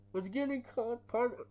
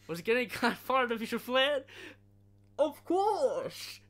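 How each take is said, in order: First: CIA agent voice, botched line. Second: Much higher and louder mock agent; CIA agent voice, corrected. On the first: Retold or imitated. Quoting CIA agent, mistaken take. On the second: Friend corrects his movie quote, high and loud.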